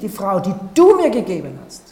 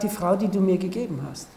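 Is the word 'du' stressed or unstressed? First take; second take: stressed; unstressed. First: The word du carries strong stress. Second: The word du carries no special stress. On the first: It accuses the one addressed of causing the problem. The speaker calls it wrong. "Im hebräischen Text wird nicht das Wort du betont. Er sagt nicht" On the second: It simply confesses what happened. The speaker calls it right. "Er sagt"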